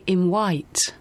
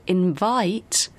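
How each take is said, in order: First: The middle consonant is a W sound. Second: The middle consonant is a V sound. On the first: The speaker calls it wrong. "Some people I've met pronounce V as W" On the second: The speaker calls it right. "instead of invite"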